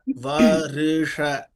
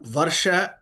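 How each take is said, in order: First: A short i sound separates r and sh. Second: The r runs straight into sh, no vowel. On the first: The speaker calls it right. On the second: The speaker calls it wrong. "It's not Varsha"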